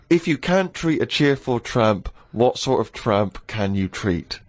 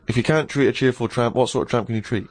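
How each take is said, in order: First: It is read at a normal speed. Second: It is said quickly, like a tongue twister.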